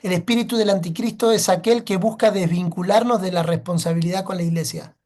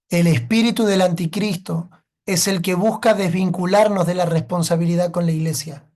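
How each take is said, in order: First: It is said fast. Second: It is said slowly.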